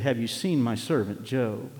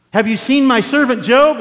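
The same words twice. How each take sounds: First: Said in the usual way. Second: Much louder and higher, bragging; proud booming boast. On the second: Acted. God bragging to the devil about Job, booming. God's line quoted twice.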